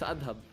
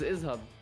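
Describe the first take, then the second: First: The middle consonant is a dh sound. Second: The middle consonant is a z sound. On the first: The speaker calls it wrong. "the Google is telling you it's adhab" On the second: The speaker calls it right. "This is izhab"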